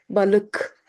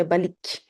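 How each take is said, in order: First: Balık with schwa-like ı and hard k; hard k, dotless ı. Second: Balik with ee vowel and soft k; wrong soft form. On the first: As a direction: say Balık with dull uh, then hard k. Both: Shown as a demonstration. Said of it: "We don't say balik".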